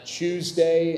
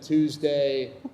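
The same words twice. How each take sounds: First: It is said with a South African pronunciation. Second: It is said with an American pronunciation. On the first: This is how the speaker said it as a child. "I used to say" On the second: This is the usual pronunciation around the speaker. "instead of Tuesday"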